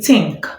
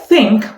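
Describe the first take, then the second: First: It starts with a hard t sound. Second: It starts with a soft th sound. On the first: The speaker calls it wrong. "we substitute the voiceless with the t sounds" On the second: The speaker calls it right. "instead of saying think"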